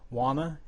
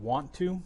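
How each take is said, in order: First: The words are merged and sounds are dropped. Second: Both words are said fully and separately.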